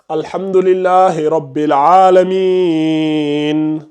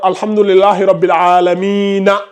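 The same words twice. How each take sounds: First: The last word ends on a bare n. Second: The last word ends with a full vowel.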